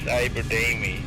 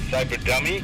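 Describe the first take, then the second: First: The second part sounds like 'Damie'. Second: The second part sounds like 'dummy'. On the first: The speaker calls it right. "Should I say Damie?" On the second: The speaker calls it wrong. "I keep referring to you as Cyberdummy, and that's not what I meant"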